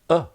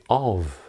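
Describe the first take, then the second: First: The word is a weak vowel with no v. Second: The word is said in full with a clear vowel. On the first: "or even a. The v can disappear" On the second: "is rarely uh, spoken in this way"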